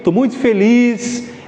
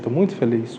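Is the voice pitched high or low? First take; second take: high; low. First: The voice is pitched high and lively. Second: The voice stays low and flat in pitch. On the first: The speaker calls it right. "mais para cima" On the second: The speaker calls it wrong. "Ninguém está feliz pra caramba e falando assim"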